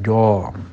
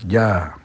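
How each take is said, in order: First: The syllable is heavy with a rounded o vowel. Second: The syllable is light with an open a vowel. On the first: The speaker calls it wrong. "tidak jom" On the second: The speaker calls it right. "istifal, ja"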